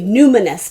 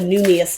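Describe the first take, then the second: First: An n sound comes before the last syllable. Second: No n sound comes before the last syllable. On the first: The speaker calls it right. "It's called the Numinous deck" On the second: The speaker calls it wrong. "I always call it the Numius deck"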